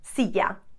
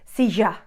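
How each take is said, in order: First: It is said in a Spain Spanish accent. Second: It is said in an Argentinian accent. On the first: "Notice that sound?" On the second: "What would an Argentinian say?"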